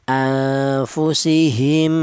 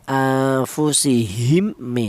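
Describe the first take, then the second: First: The final m merges smoothly into the next m. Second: The final m is pronounced separately and clearly. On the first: The speaker calls it right. "langsung menyatu ke huruf mem yang ke nomor dua" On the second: The speaker calls it wrong. "Tidak boleh ini dibaca idhar"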